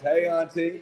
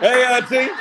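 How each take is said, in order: First: It is said imitating Killmonger's voice. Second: It is said in his normal voice.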